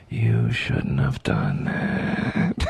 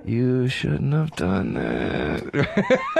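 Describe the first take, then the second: First: Very low, very slow menacing threat; menacing movie villain. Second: Very slow threat with a laugh breaking through; menacing movie villain. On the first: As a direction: drag each word out deep and deadly like a film villain. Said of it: "my new fantasy". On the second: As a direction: stretch it out slowly, trying to sound deadly through a giggle. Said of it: "To just go". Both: Acted.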